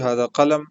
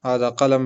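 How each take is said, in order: No difference in how they are said.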